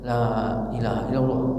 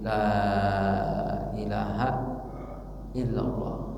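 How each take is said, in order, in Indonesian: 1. Frasa itu diucapkan dengan cepat dan keras. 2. Frasa itu diucapkan dengan lambat dan lembut. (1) "tidak boleh keras-keras, tidak boleh tergesa-gesa ... Itu tidak baik" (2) "talkin itu harus dengan cara pelan-pelan"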